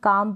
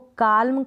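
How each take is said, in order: First: The L sound is silent in the word. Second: The L sound is pronounced in the word. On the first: The speaker calls it right. "काम पढ़ते हैं, एल silent रहता है" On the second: The speaker calls it wrong. "इसको काल्म कभी बोलते नहीं"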